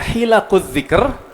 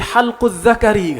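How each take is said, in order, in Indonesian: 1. Frasa itu dibaca hilaq adh-dhikr. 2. Frasa itu dibaca halq adh-dhakari.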